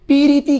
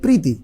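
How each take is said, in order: First: A vowel separates the first two consonants. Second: The first two consonants are said together. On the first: This is how village people say it. "গ্রাম বলে কি চলো পিরিতি করি" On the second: This is how city people say it. "শহরের style কি প্রীতি"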